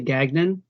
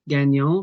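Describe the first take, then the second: First: The name has an anglicized pronunciation. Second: The name has a French pronunciation. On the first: The speaker calls it wrong. "but they all say Gagnon" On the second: The speaker calls it right. "a very common name in New England is Gagnon"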